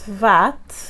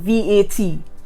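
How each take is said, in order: First: It is pronounced as one short word. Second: Each letter is spoken separately. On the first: The speaker calls it right. "this word is V A T" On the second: The speaker calls it wrong. "that's so long, V A T. Takes so much out of you"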